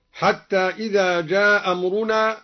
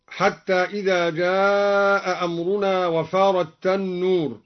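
First: جاء أمرنا with the hamza dropped; Duri reading. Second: Said in the usual way. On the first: Shown as a demonstration. (جاء أمرنا بإسقاط الهمزة) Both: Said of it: "قرأ الدوري بإسقاط الهمزة".

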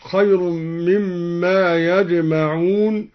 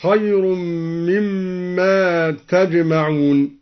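First: Said in the usual way. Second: تجمعون starting with t, "tajma'un"; slow chanted recitation, clear t opening تجمعون; second-person form. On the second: Shown as a demonstration. Teacher showing al-Duri's reading, تجمعون with a t. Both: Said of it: "قرأ الدوري بالخطاب هكذا".

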